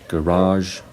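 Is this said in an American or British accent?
American. It is said in an American accent. "Americans would usually say"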